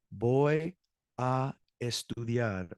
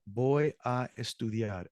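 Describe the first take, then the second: First: "Voy" held, then a pause before "a estudiar"; slow, separated model answer for learners; word-by-word. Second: Said in the usual way. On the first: Shown as a demonstration. Teacher answering what you'll do tonight, word-by-word.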